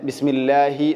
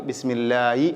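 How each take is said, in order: The two takes are said the same way.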